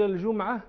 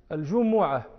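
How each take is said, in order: First: الجمعة said "al-JUM-'a", no vowel after the m; lightened with sukun. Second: الجمعة said "al-ju-MU-'a", u after the m; damma on the mim. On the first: Teacher showing the lightened form, الجمعة as "al-jum'a". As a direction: close الجمعة on a vowelless mim. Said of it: "وسكنت تخفيفا". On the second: Teacher showing the original form, الجمعة as "al-jumu'a". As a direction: give الجمعة a clear u on the mim. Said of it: "بضم الميم". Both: Shown as a demonstration.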